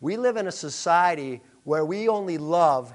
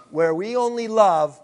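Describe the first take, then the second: First: Said in the usual way. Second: "only" punched louder, falling after it; stress on ONLY. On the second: Shown as a demonstration. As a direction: repeat it and hit "only" hard. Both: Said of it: "hear me now".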